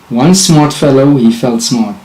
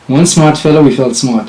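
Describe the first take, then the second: First: It is said slowly. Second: It is said fast.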